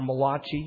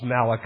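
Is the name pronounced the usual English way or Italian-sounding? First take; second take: Italian-sounding; usual English. First: The name is given an Italian-sounding pronunciation. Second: The name is given the usual English pronunciation. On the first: The name belongs to an Italian writer. The speaker calls it wrong. "he was an Italian writer" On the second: The name is the biblical prophet's. The speaker calls it right. "No, it's Malachi"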